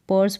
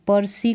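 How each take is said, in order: First: The word ends on the 's' sound. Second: The word ends with an added 'ee' sound. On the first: The speaker calls it right. "पर्स पढ़ेंगे और ई जो है last में ये silent है" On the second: The speaker calls it wrong. "पर्सी करके नहीं पढ़ेंगे"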